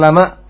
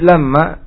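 First: The m is short and light. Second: The m is doubled and held longer. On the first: Every soul surely has a guardian over it. "dibaca takhfif ringan" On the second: There is no soul but has a guardian over it. "dibaca tasydid"

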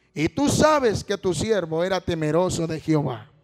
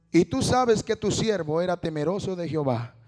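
The two takes are said the same way.

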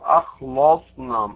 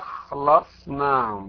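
First: The L sound is heavy and thick. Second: The L sound is light and thin. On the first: The speaker calls it wrong. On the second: The speaker calls it right.

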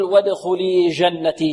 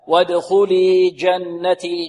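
First: The j sound flows without a full stop. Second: The j sound has a firm, complete stop. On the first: The speaker calls it wrong. "لا نقول وادخلي جنتي" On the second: The speaker calls it right. "الجيم فيها شدة وانحباس صوت"

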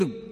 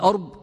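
First: The word begins with an 'i' vowel. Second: The word begins with an 'a' vowel. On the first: The speaker calls it right. "والصواب أو الأشبه أنه بكسر الهمزة" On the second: The speaker calls it wrong. "أكثر المحدثين يرويه بفتح الهمزة يعني أرب"

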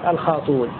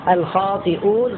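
First: No glottal stop; a u vowel replaces it. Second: A glottal stop follows an i vowel. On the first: "يحذف الهمزة وينقل حركتها إلى ما قبلها، كان قبلها مكسورا فيضم" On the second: "الخاطئون صارت"

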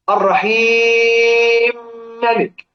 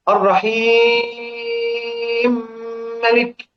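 First: The vowel before the merged m lasts four counts. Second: The vowel before the merged m lasts six counts.

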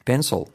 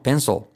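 First: The final L is dark and far back. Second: The final L is dark and far back.

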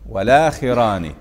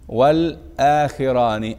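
First: The l links straight into the vowel, no stop. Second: A glottal stop separates the article from the word. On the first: "أخذنا فتحة الهمزة إلى اللام" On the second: "أين النقل؟"

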